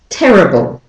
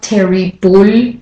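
First: The last two syllables are quick and reduced. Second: The last two syllables have full, clear vowels. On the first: The speaker calls it right. "quickly from the B to the O" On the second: The speaker calls it wrong. "so it's not terry bull"

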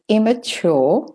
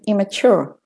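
First: It is spoken in a British accent. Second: It is spoken in an American accent.

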